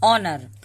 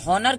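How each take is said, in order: First: The word starts with a vowel, no h sound. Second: The word starts with an audible h sound. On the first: The speaker calls it right. "यहाँ पे H silent होता है" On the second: The speaker calls it wrong. "हम हॉनर क्यों नहीं पढ़ते हैं"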